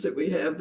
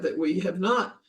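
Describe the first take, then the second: First: Said in the usual way. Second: "not" lifted with a rising tune; "we have not" with "not" stressed and rising. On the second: Real, not acted. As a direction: lean on "not" to correct the claim. Repeat adds NOT for contrast.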